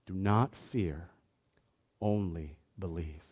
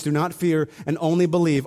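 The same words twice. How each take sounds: First: Soft, slow and much softer; Jesus quietly comforting the father, softly; gentle reassurance. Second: Said in the usual way. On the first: Retold or imitated. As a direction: lay it down tenderly, word by word. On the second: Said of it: "both of these commands".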